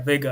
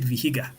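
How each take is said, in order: First: The h sound in the middle is silent. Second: The h sound in the middle is pronounced. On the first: The speaker calls it right. "I know it's Vega" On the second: The speaker calls it wrong. "I would have said Vihiga"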